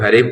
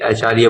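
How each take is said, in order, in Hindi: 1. यह एक जुड़े हुए शब्द की तरह बोला जाता है। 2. यह H अक्षर के नाम से शुरू होता है। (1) "कुछ लोग हरीफ बोलते हैं" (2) "कुछ लोग ए आचार्य बोलते हैं"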